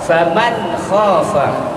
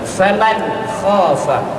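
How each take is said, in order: No difference in how they are said.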